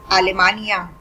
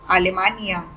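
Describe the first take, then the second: The two takes are said the same way.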